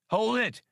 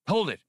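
First: Much higher, insistent halt command; insistent order. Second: High, sharp halt command; sharp order. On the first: Han repeats his order to stop firing, high and insistent. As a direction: call the order out over the firing. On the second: Han orders the others to stop firing, commanding. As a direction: order the shooting stopped. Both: A narrator's reading. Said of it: "Han ordered".

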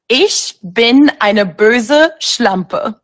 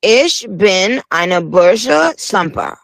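First: Very slow, each German word spelled out; slow teaching repeat. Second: "Ich bin eine böse Schlampe" sounded out very slowly, word by word; learner's careful repeat. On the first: Teaching the host a phrase, slow deliberate German. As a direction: spell out "Ich bin eine böse Schlampe" slowly for a learner. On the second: Host repeating the guest's German, slow careful try. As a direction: copy the German phrase slowly like a beginner. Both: Shown as a demonstration. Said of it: "Can you teach me how to say something?".

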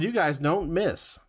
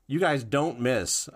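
First: Slow, higher "You Guys Don't Miss" with words run together; slightly slurred. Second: Said in the usual way. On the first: Real, not acted. Host reading a review title, words slightly slurred. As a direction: slur "Don't Miss" a little. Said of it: "I slurred it the first time". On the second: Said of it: "had to say it twice".

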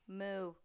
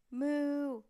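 First: Short moo at talking volume; a modest tuba moo; cow-like moo. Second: Long, loud, higher moo; big cow moo. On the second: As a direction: blast a tuba note like a cow. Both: A narrator's reading. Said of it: "It sounded like a cow".

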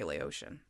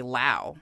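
First: Laotian as lay-OH-shun; Laotian, lay-oh-shun, quietly; Laotian in three syllables. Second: Lao rhymes with now; Lao, one short syllable. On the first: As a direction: stretch out Laotian. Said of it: "when you talk about things". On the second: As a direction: say Lao like "lau". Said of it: "when you talk about people". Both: Shown as a demonstration.

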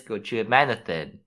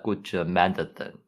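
First: Said in the usual way. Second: Light Russian accent on "Gochu Manathan"; lower, lightly Russian-accented name. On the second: Shown as a demonstration. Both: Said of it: "say it in the Russian accent".

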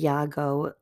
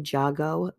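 First: "Yago" with a Y sound, YAH-go; "Yago" pronounced with an initial Y; Y pronunciation. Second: "Jago" with an English J, JAH-go; "Jago" pronounced with a hard J; J pronunciation. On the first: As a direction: say "Yago" starting like yes. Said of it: "when you pronounce a J like a Y". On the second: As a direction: say "Jago" starting like jam. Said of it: "but I'll say Jago". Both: Shown as a demonstration.

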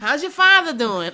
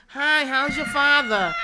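First: Mocking nosy townie. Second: Very high, loud, slow sing-song concern; mocking nosy townie. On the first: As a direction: parody the gossip's fake sympathy, pitched way up. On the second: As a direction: parody the nosy neighbor's fake concern, high and drawn out. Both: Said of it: "why y'all talk like that".

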